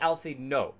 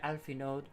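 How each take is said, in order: First: The name ends with no d sound. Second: The name ends with a faint d sound. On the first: "like without the the d at the end" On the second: "is it very very softly there"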